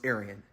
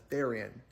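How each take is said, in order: First: The word begins with a vowel sound. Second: The word begins with a th sound.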